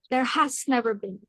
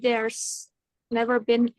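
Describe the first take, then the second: First: The word has is said in full. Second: Has is shortened into there's. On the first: "harusnya sih pakai has" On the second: "Tapi dia singkat jadi"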